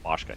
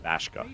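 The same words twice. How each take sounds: First: The name is said with a plain Finnish vowel. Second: The name is said with an American-style vowel. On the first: "It's really easy to say just Bashka" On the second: "instead of Bashka, you know, like American"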